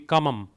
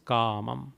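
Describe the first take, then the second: First: The first vowel is short. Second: The first vowel is long. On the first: "Had it been without a bar, it would be kamam" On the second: "A with a bar, so it is ka. Here it is kamam"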